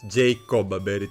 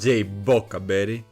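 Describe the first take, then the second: First: The middle syllables are said as co then ba. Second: The middle syllables are said as bo then ca. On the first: The speaker calls it wrong. "I've pronounced it wrong for so long" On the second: The speaker calls it right. "it's actually called"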